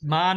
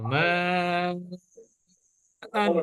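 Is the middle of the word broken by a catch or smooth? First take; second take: smooth; broken. First: The vowels run together smoothly without a catch. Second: A sharp glottal catch separates the two vowels. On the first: The speaker calls it wrong. "মান না" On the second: The speaker calls it right. "একটু ধাক্কার মতো"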